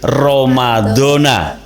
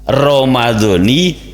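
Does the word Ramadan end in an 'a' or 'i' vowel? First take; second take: a; i. First: The word ends with an 'a' vowel. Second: The word ends with an 'i' vowel. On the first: The speaker calls it wrong. "Rata-rata orang itu membaca lafaz Ramadan itu dibaca fathah" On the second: The speaker calls it right. "secara benarnya itu adalah Romadoni"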